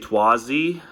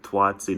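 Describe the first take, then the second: First: The second T sound is dropped. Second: The second T sound is pronounced. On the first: "I swallowed the second T. It's much more fun to just say Twazi" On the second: "it's technically Twatzi, or else it's nonsensical. So it doesn't sound that good"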